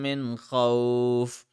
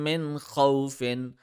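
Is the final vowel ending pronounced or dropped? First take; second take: dropped; pronounced. First: The final vowel ending is dropped. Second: The final vowel ending is pronounced. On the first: The reciter stops on this word. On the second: The reciter continues without stopping.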